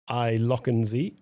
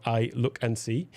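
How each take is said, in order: First: "Look and See" run together as "lock-un-zee"; run-together name. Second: "Look and See" as three clear English words; separate plain words. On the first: Streamer reads an odd brand name to viewers, "Look and See" blurred into "lock-un-zee". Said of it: "That's the way that it is, uh, is spelt". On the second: Streamer re-reads the brand name so it makes sense, "Look and See" as separate words. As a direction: slowly sound out "Look and See", with "look" as in looking and a clear S in "See". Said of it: "if it makes more sense". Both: Shown as a demonstration.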